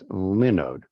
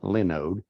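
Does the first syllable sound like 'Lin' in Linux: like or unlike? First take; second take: like; unlike. First: The first syllable sounds like 'Lin' in Linux. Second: The first syllable does not sound like 'Lin'. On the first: The speaker calls it right. "It's Linode, as in Linux" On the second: The speaker calls it wrong. "I've been pronouncing it wrong all these years. It's not Linode"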